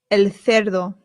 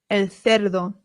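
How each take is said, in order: No difference in how they are said.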